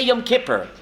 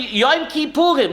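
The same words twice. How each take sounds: First: "Kippur" said as KIPP-er; everyday pronunciation. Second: "Kippurim" in three syllables, ending in -im; full Hebrew name. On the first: Teacher shows what we say, everyday KIPP-er for "Kippur". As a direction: stress the first syllable of "Kippur", reduced ending. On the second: Teacher contrasts the written name, full "Kippurim" pronunciation. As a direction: say "Yom Kippurim" with a long oo before -im. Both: Shown as a demonstration. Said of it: "We say Yom Kippur".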